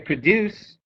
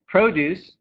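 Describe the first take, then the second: First: The stress is on the second syllable. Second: The stress is on the first syllable. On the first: The word is a verb. "If I say produce, then it's a verb" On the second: The word is a noun. "If I say produce, it's a noun"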